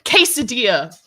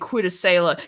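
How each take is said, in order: First: The word is said as kay-sa-deeya. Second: The middle is said as dass-ailor, spelling-style. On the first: The speaker calls it right. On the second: The speaker calls it wrong.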